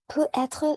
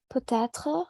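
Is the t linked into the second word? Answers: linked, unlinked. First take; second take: unlinked; linked. First: The t is not linked to the next word. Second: The t is linked into the next word. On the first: It means 'can be'. "Il n'y a pas de liaison entre les deux" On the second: It means 'maybe'. "il y a toujours euh, la liaison"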